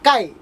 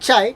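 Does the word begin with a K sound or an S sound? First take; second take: K sound; S sound. First: The word begins with a K sound. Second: The word begins with an S sound. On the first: The speaker calls it right. "It's கை" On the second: The speaker calls it wrong. "It's not சை"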